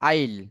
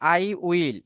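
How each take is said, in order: First: The words are shortened into one syllable. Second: Both words are said fully and separately.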